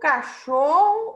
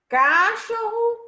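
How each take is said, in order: First: The stress is on the middle syllable. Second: The stress is on the last syllable. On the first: The speaker calls it right. "a penúltima sílaba, cho" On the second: The speaker calls it wrong. "É a última sílaba, ro"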